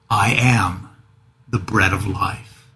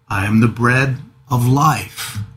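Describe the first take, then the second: First: The stress is on I am. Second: The stress is on life.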